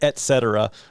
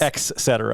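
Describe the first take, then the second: First: The first syllable is said with a T sound. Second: The first syllable is said with an X sound. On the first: The speaker calls it right. "it's et cetera" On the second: The speaker calls it wrong. "not ex cetera. The ex"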